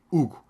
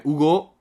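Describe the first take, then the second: First: Hugo said as HU-go, falling after HU; stress on first syllable. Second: Hugo said as u-GO, rising on GO; u-GO with an open, stressed ending; stress on last syllable. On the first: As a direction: lean on the opening syllable of Hugo. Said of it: "não é Hugo, é Hugo". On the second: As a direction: lean on the final syllable of Hugo. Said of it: "em que sílaba tónica é que vão meter?". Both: Shown as a demonstration.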